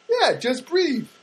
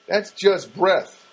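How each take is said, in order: First: "breathe" drawn out with a long ee; breathe, long vowel. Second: "breath" said slowly with short eh; breath, short vowel. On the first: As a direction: say "breathe" slowly with long ee and voiced th. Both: Retold or imitated.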